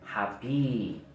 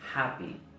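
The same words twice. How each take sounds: First: The final vowel is long. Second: The final vowel is short. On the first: The speaker calls it wrong. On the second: The speaker calls it right. "el sonido va a ser corto"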